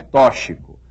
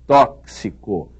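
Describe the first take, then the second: First: The x is said as some sound other than ks. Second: The x is said as a ks sound. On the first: The speaker calls it wrong. "não é tóxico" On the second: The speaker calls it right. "é tóxico. ... Esse X deve ser lido como se houvesse aí um C e um S"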